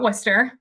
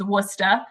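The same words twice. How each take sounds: First: The word ends with an 'er' sound. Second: The word ends with an 'ah' sound. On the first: "that's how you pronounce that word" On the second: "with the Boston accent, we tend to drop the E R and add an A H instead"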